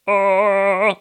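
The sound is placed back in the throat.

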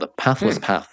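It is said in an American accent.

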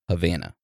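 Havana is said with an American pronunciation. "In the United States, they pronounce it"

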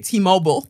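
It is said in an American accent.

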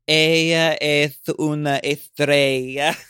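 It is spoken with a Spanish accent from Spain.

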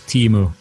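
The name is pronounced with English sounds. "the English version"

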